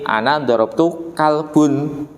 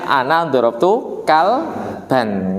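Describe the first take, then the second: First: The last word ends with a 'u' vowel. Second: The last word ends with an 'a' vowel. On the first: The speaker calls it wrong. "harusnya dibaca A, keliru U" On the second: The speaker calls it right. "harusnya ana dorob tu kalban"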